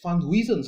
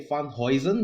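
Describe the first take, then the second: First: The name is said in a plain style. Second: The name is said in a Dutch style. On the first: The speaker calls it right. "the reporter or, or yeah whoever in the video referred to him as Van Huysen" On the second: The speaker calls it wrong. "I always say Van Huysen because I thought that, yeah, it's like a German or Dutch thing"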